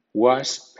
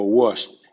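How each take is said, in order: First: "wasp" with an open ah, "wahsp". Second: "wasp" with a rounded o, "wosp". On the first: Teacher giving first option for W A words, "wasp" with open "wa". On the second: Teacher giving second option for W A words, "wasp" with rounded "wo". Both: Shown as a demonstration. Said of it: "suena wa o wo".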